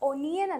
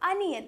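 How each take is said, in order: First: The word starts with an 'o' vowel. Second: The word starts with an 'a' vowel. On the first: The speaker calls it wrong. "ഒനിയൻ അല്ല" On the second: The speaker calls it right. "അനിയൻ എന്നാണ് pronounce ചെയ്യുക"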